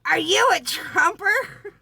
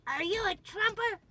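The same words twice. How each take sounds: First: High, loud, slow mock accusation of an old woman; accusing old lady. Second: A shrill-free but high nagging echo; accusing old lady. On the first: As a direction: squawk it like a tiny furious grandma. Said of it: "she's going". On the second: Retold or imitated. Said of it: "she's just all over".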